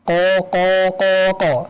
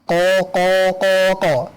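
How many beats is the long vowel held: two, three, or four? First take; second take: four; four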